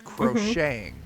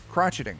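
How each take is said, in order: First: The middle consonant sounds like 'sh'. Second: The middle consonant sounds like 'tch'. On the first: This is the later, French-influenced way of saying it. The speaker calls it wrong. "They changed it to crocheting" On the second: This is the older, traditional way of saying it. The speaker calls it right. "That's the the traditional pronunciation"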